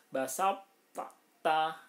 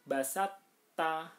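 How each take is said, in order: First: "Basop ta" with a heavy released stop, then a separate ta; unmerged to, wrong. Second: "basat ta" with the first t absorbed into a doubled t; merged to, correct. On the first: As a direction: loudly break "Basop ta" in two, consonants not merged. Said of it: "Ini keliru". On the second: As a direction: recite "basat ta" as one held t opening into ta. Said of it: "Tapi yang benar adalah". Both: Shown as a demonstration.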